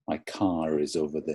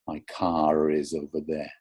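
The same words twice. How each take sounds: First: The linking r before is is subtle. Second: The linking r before is is exaggerated. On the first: "I think you can hear that, I hope" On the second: "If I make it really exaggerated"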